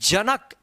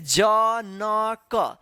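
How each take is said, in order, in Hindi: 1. अक्षरों को मिलाकर एक शब्द में बोला जाता है। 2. हर अक्षर को रुक-रुक कर अलग-अलग बोला जाता है। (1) "एक साथ उच्चारण करके पढ़ देना है" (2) "अलग अलग उच्चारण करना है"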